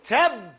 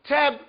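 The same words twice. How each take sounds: First: The b sound is doubled and held longer. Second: The b sound is short and light. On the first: The speaker calls it right. "it strengthens that letter" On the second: The speaker calls it wrong. "you don't say teb"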